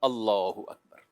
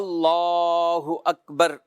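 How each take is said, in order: First: The phrase is said briefly without lengthening. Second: The phrase is drawn out and lengthened. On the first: Worshippers should fold their hands. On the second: Worshippers should let their hands drop.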